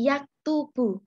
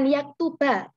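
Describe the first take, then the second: First: The word ends in an 'u' vowel. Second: The word ends in an 'a' vowel. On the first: The speaker calls it right. "Dibaca dhammah" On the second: The speaker calls it wrong. "bukan yaktuba"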